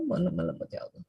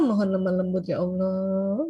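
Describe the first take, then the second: First: Hushed, faster murmur to God; soft quick prayer. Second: Gentle prayer. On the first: Preacher shows parents a soft prayer for gentleness. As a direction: pray it under your breath, quickly. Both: Shown as a demonstration. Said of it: "Makanya minta".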